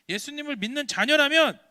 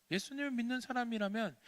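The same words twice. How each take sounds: First: Loud, higher preaching climax; rising call. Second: Said in the usual way. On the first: Acted. Preacher exhorting children, louder climax. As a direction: build and call it out. Building repetition.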